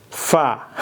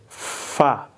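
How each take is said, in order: No difference in how they are said.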